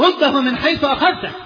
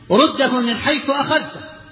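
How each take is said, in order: First: The voice is strongly raised and louder. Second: The voice is somewhat raised and sharper. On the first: The refusal is firmer and final. "لهجة أعلى" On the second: The refusal is firm. "شوي اللهجة كانت أحد"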